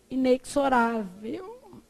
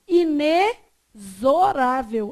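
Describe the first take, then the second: First: The x is not sounded as z. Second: The x is sounded as z. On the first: The speaker calls it wrong. "porque está errado" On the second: The speaker calls it right. "X com som de Z"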